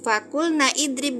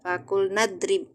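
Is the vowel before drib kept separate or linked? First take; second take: separate; linked. First: The i of idrib is said separately. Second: The words run together, dropping the i. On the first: The speaker calls it wrong. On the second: The speaker calls it right.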